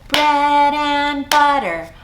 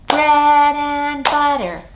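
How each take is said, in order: The two takes are said the same way.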